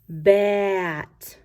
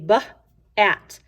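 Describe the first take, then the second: First: The sounds are blended quickly into one word. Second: The sounds are said slowly with a break between. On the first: "as I put it together, I say it faster" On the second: "If I read it like this, I say b, at"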